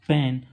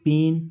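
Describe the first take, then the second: First: The vowel is open, like in 'cat'. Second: The vowel is closer, like in 'bed'. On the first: The speaker calls it wrong. "हमेशा बोलते हैं" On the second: The speaker calls it right. "तो ऐसा नहीं है, वो पेन"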